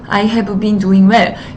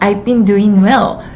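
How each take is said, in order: First: Each word is said fully and stiffly. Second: It flows smoothly with reduced, linked words. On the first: The speaker calls it wrong. "책을 읽는 것처럼 딱딱하게" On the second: The speaker calls it right. "훨씬 더 자연스럽게"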